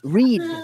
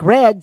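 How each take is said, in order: First: The vowel is a long ee sound. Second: The vowel is a short e sound. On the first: This is how southern speakers say it. The speaker calls it wrong. "some people would say read" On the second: This is the standard pronunciation. The speaker calls it right. "instead of saying um, uh, like red"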